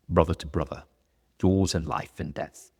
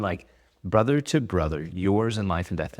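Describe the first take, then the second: First: A loosely put-on Gladiator-style accent, lightly done; half-hearted epic movie accent; bad movie accent. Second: Said in the usual way. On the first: Quoting the Gladiator oath in a bad movie accent. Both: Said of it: "that's a bad accent".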